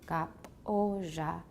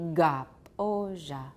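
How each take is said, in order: First: The first consonant is voiceless, like a k. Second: The first consonant is voiced, like an exaggerated g. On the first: The speaker calls it right. "This was gap oja" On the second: The speaker calls it wrong. "If it were voiced, it would be gap oja"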